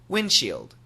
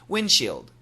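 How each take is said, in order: First: The D sound is dropped entirely. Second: The same.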